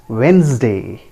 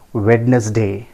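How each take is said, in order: First: Wednesday slowly as WENZ-day; correct pronunciation. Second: Wednesday as WED-nus-day; wrong pronunciation. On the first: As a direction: drop the first D of Wednesday. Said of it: "it is Wednesday". (Wednesday का सही उच्चारण, वेन्ज़-डे) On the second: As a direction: sound the D in Wednesday. (Wednesday का गलत उच्चारण, वेड-नस-डे) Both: Shown as a demonstration.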